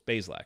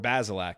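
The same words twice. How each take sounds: First: The name is said with two syllables. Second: The name is said with three syllables. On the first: The speaker calls it right. "Two syllables" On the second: The speaker calls it wrong. "It's not"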